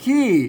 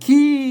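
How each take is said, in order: First: It has the ordinary tho tone. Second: It has the special tone between tho and tri. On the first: "ขี้เสียงโทปกตินะครับ" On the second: "เสียงโทพิเศษ"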